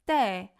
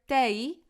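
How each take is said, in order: First: The vowel stays a single pure sound. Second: The vowel glides into an extra vowel sound. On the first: The speaker calls it right. "but rather te" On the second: The speaker calls it wrong. "we don't want to hear te"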